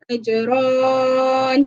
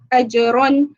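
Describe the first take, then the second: First: The vowel is drawn out long. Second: The vowel is kept short. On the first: The speaker calls it wrong. "jangan baca ajron" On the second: The speaker calls it right. "Contohnya ajron"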